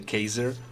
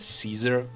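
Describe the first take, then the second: First: The word begins with a hard k sound. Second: The word begins with a soft s sound. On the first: "they pronounced C as a K" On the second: "they did not pronounce C"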